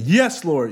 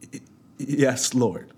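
First: It is screamed loudly and forcefully. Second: It is muttered quietly and haltingly.

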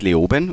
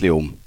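First: It is said in Standard German. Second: It is said in the local dialect.

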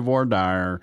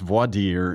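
First: It is said with a Southern American pronunciation. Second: It is said with a French pronunciation.

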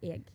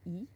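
First: It is said as 'eg' with an audible g. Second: It is said as the close vowel 'i'. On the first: "Britain-wise, it's E-G. So you're just missing the J on the front. But now suddenly the G is audible" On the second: "there's some regions like in the middle where they say E"

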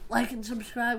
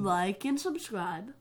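First: It is said at normal speed. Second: It is said more slowly.

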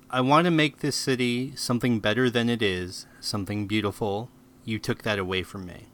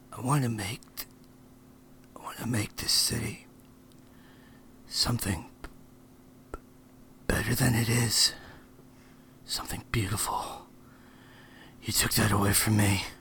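First: The line is spoken at a normal pace. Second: The line is spoken very slowly.

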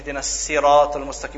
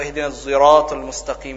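First: Sirat begins with a plain, light s sound. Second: Sirat begins with a sound blended toward z. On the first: "with a Sin instead of a Sad" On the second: "with a Ishmam"

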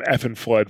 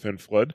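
First: An extra vowel sound comes before the F. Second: The name starts directly with the F sound. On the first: The speaker calls it wrong. "as I call him, Effin' Flood, for some reason, wrong all the time" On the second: The speaker calls it right. "That's not how you say it. It's Finn Flood"

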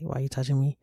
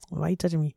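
First: The question sounds flat and serious. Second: The question sounds light and playful. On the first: The question is meant for real. "But I'll be dead ass like" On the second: The question is meant as a joke. "say it in a playful way"

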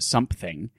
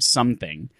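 First: The word has a p sound in it. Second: The word has no p sound in it. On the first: "hearing people pronounce it something" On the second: "to see the word something"

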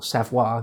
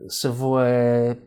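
First: The name is said in its native way. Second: The name is said in an anglicized way. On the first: "you should probably pronounce it rather than Savoy" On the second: "but I'll be saying Savoy"

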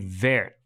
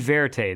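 First: The word ends without a t sound. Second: The word ends with an audible t sound. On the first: "I think it would be Vert" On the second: "It wouldn't be Verte then"

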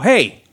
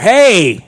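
First: It is said quietly. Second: It is said loudly.

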